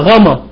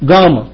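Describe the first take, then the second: First: The word begins with a fricative gh sound. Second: The word begins with a hard plosive g. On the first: This is the modern Greek pronunciation. "يتنطق غاما بالحديث" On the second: This is the ancient Koine pronunciation. "الكوين جريك بنقول حرف الجاما"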